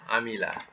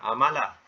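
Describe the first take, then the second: First: The second syllable has the vowel 'i'. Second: The second syllable has the vowel 'a'. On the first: The speaker calls it right. "madinya bunyinya Amila" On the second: The speaker calls it wrong. "bukan uh, Amala"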